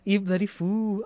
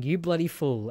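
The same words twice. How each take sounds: First: Imitating the duck. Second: Said in the usual way. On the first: Echoing the duck clip.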